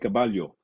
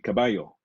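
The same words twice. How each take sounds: First: The double L is said like an L. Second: The double L is said like a Y. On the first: The speaker calls it wrong. "they don't say caballo" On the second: The speaker calls it right. "they pronounce double L as almost a Y"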